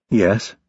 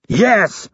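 First: Said in the usual way. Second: Much higher, barked echo. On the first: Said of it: "Rapp said without twitching". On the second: A narrator's reading. Instructor throws recruit's answer back at him, barked. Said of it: "Hurley barked".

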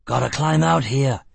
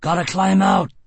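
First: Shouting. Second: Higher, louder urgent shout; shout over roaring water. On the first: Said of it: "he shouted". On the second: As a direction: yell to be heard over rapids. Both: Acted.

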